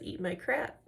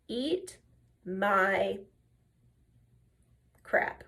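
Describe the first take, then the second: First: Softly repeated in one run; retold matter-of-fact defiance. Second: Word by word, with long pauses; deliberate retold defiance. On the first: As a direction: imitate an unfazed comeback, softly, no pauses. Retold insult repeated in one breath. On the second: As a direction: hold back each word for dramatic effect. Retold defiant line, drawn out.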